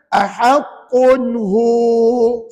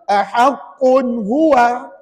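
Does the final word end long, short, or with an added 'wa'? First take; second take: long; added wa. First: The final vowel is lengthened. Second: The final word ends with an added 'wa' syllable. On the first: The speaker calls it right. "Jadi bacaan yang betul macam mana?" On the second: The speaker calls it wrong. "Dia baca huwa kat situ tuan-tuan. Salah"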